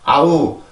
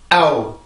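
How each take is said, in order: First: It is said softly with relaxed vocal cords. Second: It is said with tense, engaged vocal cords. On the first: The speaker calls it wrong. "우리나라는 성대를 긴장시키지 않고 그냥 아우" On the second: The speaker calls it right. "영어는 성대를 써주는 언어이기 때문에 아우, 아우 이렇게 발음을 해줘요"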